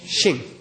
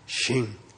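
First: The word is said with a high tone. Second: The word is said with a low tone. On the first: It means wood. "High tone" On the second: It means a field. "The pronunciation is a low tone sha"

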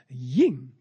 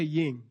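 First: It is said with an expressive, exclamatory feeling. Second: It is said plainly, like 'yin' in yin-yang. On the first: The speaker calls it right. "You do it with a special feeling" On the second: The speaker calls it wrong. "You don't say ying, like yin-yang. It's not like that"

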